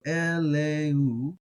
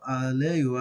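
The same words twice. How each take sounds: First: Eleu with a plain e at the start, drawn out slowly; e sound. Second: Aleu opening on an open a, slow; Aleph pronounced. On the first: Teacher showing eleu with the Aleph treated as silent. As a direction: start eleu on a clear e vowel. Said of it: "which is an e sound". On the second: Teacher showing his preferred aleu with the Aleph sounded. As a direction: start aleu on a full a vowel. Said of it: "I like pronouncing the aleph". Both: Shown as a demonstration.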